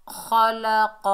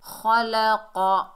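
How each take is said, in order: Both takes have the same delivery.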